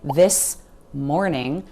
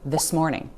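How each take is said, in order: First: The two words are said separately. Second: The s sound runs into the next word. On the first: The speaker calls it wrong. "We're not going to say this morning" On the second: The speaker calls it right. "the s at the end of this, moves forward into morning"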